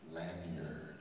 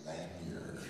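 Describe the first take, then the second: No difference in how they are said.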